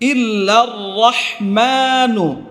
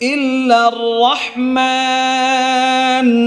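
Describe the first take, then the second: First: The last word ends with an 'u' vowel. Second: The last word ends on the consonant 'n'. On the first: The reading continues without a stop. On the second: The reader stops at this word.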